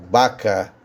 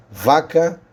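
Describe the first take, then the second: First: Baca with a B sound, the Spanish way of saying vaca. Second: Vaca with a clear Portuguese V, lips on teeth; Portuguese v sound. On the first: Teacher contrasting Portuguese and Spanish, Spanish B sound. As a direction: say baca with lips closed, B not V. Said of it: "em espanhol eu pronuncio baca". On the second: Teacher contrasting Portuguese and Spanish, clear V in vaca. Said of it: "em português". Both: Shown as a demonstration.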